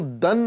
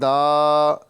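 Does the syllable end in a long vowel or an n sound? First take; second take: n sound; long vowel. First: The syllable ends with an n sound. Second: The syllable ends with a lengthened a vowel. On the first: The speaker calls it wrong. "दन नहीं" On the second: The speaker calls it right. "बल्कि दा, दा इन एक अलिफ के बराबर खींच के"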